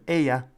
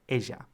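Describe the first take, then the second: First: The middle consonant sounds like English y. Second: The middle consonant sounds like English j.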